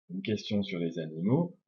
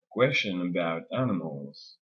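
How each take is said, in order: First: "une question sur les animaux" in equal beats; evenly timed "une question sur les animaux"; rhythm on every syllable. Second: Slow "question about animals", beats on QUES and AN; "question about animals" in slow strong-weak pulses; English stress rhythm. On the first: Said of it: "le rythme, il est sur chaque syllabe". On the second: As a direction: land on the first syllables of "question" and "animals", squeeze the rest between. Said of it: "elle modifie le rythme de la langue". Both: Shown as a demonstration.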